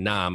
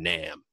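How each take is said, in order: First: The word sounds soft and mild. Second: The word sounds harsh and aggressive. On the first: The speaker calls it wrong. "I'm not saying Nam" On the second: The speaker calls it right. "It just sounds a little bit more aggressive"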